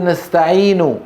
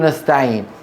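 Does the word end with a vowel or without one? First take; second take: vowel; without. First: The word ends with a full final vowel. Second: The word ends on a consonant, with no vowel. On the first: "كان أول يقول" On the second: "بالسكون"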